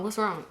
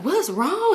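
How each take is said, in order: First: Said in the usual way. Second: High, urgent question, jolted awake; imitating startled alarm. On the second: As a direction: mimic him jumping up in alarm, pitched high. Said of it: "He hop up quick".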